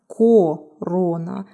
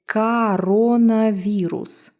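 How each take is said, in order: First: The unstressed o vowels are said as full o. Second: The unstressed o vowels are reduced toward a. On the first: The speaker calls it wrong. "It's not corona" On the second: The speaker calls it right. "pay attention to the vowel reduction rule"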